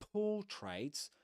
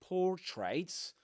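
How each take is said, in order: First: The R after the O is silent. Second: The R after the O is pronounced. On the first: The speaker calls it right. "Portraits without pronouncing the R" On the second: The speaker calls it wrong. "not por- portraits, like in American English"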